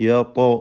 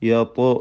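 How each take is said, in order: No difference in how they are said.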